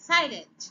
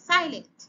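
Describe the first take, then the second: The two takes are said the same way.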